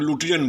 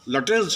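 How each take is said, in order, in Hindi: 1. इस नाम का अंत n ध्वनि से होता है। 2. इस नाम का अंत s ध्वनि से होता है। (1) "यहाँ लोग लुटियन बोलते हैं, ये गलत बात है" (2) "लटेंस है"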